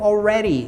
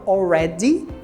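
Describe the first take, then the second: First: The d is said like a light r sound. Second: The d is said as a clear d sound. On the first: "no inglês americano already. Esse D se torna como se fosse um leve R" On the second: "no inglês britânico se fala already"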